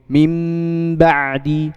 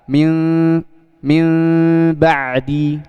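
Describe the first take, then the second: First: The lips press fully closed on the nasal. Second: The lips stay slightly open on the nasal. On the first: "ditutup dengan sempurna" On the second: "sedikit membuka"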